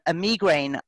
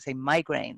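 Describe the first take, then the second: First: It is said in a non-American way. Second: It is said the American way.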